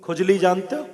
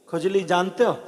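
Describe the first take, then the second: No difference in how they are said.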